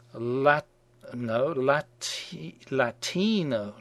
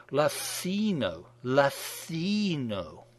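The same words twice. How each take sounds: First: Latino with a plain hard t, slow and careful; plain t attempt. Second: Latino with the t lisped to a soft th, drawn out slowly; mock politically correct Latino with a lisped th; lispy t. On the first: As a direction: sound out Latino slowly with an ordinary t. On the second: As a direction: say Latino as "Lathino", tongue between the teeth, very slow. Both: Shown as a demonstration. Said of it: "that lispy thing with the T in Latino".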